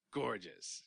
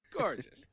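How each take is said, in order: First: Said in the usual way. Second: "Gorgeous" pitched much higher, gushing; gushing emphasis. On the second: Real, not acted. Co-host admiring Ultra Woman, "Gorgeous" gushed on a high pitch.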